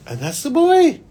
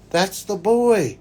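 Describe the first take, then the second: First: High, emphatic reveal; much higher, louder reveal; revelation. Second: Slow emphasis. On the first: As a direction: announce the discovery. Reveal in vision story. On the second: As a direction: let it sink in slowly. Reveal repeated. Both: Retold or imitated.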